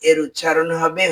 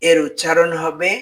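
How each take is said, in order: Both takes have the same delivery.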